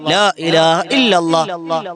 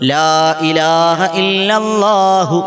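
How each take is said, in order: First: The phrase ends without a clear h sound. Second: The phrase ends with a clearly pronounced h sound. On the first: The speaker calls it wrong. "വെറുതെയാണ്" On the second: The speaker calls it right. "ഹാ ഉച്ചരിക്കണം"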